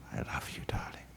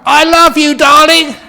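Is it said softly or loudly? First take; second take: softly; loudly. First: It is said softly, almost whispered. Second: It is said loudly, as a shout.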